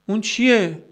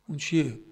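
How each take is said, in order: First: Higher-pitched "اون چیه؟", put firmly to the listeners; emphatic question. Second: Softened repeat question. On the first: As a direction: ask it high and insistent. Rhetorical question, asked twice. (پرسش تأکیدی با صدای زیر) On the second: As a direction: ask it quietly, letting it sink in. Rhetorical question repeated softly. (پرسش آرام و آهسته) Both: Real, not acted.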